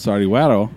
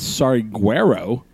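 First: The name is said with Spanish-style pronunciation. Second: The name is said with English-style pronunciation. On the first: The speaker calls it right. "it's actually pronounced" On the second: The speaker calls it wrong.

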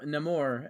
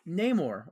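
First: The name is said in the movie's pronunciation. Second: The name is said in a non-movie pronunciation.

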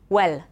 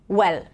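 The two takes are said the same way.

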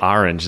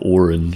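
First: The word begins with an 'ah' vowel. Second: The word does not begin with an 'ah' vowel.

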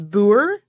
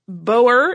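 First: The word is said the Dutch or Afrikaans way. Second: The word is said the English-speaker way. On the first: "The Dutch or Afrikaans version, my understanding is" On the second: "is very common in the when you're a native English speaker"

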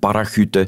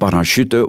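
First: The middle consonant is a throaty rasp. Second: The middle consonant is a soft 'sh'. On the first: The speaker calls it right. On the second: The speaker calls it wrong.

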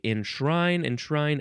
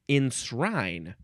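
First: The word keeps its sh sound. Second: The word is said without the sh sound.

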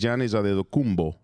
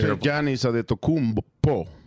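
First: The surname's ending is said as 'kumbo'. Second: The surname's ending is not said as 'kumbo'. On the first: This is how the name is really said. The speaker calls it right. "and it's Kumbo. Right? It's Giannis Adetokounmpo" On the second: This is how most people say the name. The speaker calls it wrong. "People say Giannis Adetokounmpo"

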